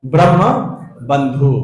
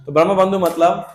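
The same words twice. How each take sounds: First: "Brahma" and "बंधु" said as two separate words with a pause between, a little louder; spelled out slowly. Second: Said in the usual way. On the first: Shown as a demonstration. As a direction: present "Brahma" then "बंधु" as a key term, word by word. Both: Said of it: "उसके लिए क्या word use हो रहा है?".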